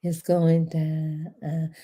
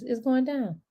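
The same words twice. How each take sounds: First: "It's going down" dragged out very slowly and low; lazy, savoring crawl; slow low drawl. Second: It's going down, punched on going; hyped announcement. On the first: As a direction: draw out "It's going down" almost hummed. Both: Shown as a demonstration. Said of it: "Let me say it like this".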